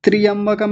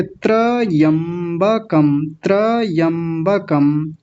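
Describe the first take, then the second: First: त्रियंबकम in one run, starting tri; mispronounced त्रियंबकम. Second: Very slow त्रयंबकम as tra-yam-ba-kam; correct त्रयंबकम. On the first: Teacher showing what not to say, त्रियंबकम with tri. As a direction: say त्रियंबकम wrongly with an i after tr. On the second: Teacher modelling the right form, slow syllabled त्रयंबकम with tra. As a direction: separate and stretch the syllables of त्रयंबकम, starting tra. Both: Shown as a demonstration. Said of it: "त्रियंबकम नहीं बोलेंगे".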